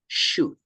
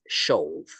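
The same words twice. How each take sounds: First: It is pronounced differently from how it is written. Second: It is pronounced the way it is written. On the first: The speaker calls it right. "The pronunciation is more like should" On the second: The speaker calls it wrong. "we don't pronounce as should"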